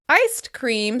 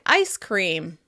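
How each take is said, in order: First: A t sound is heard before cream. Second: No t sound is heard before cream.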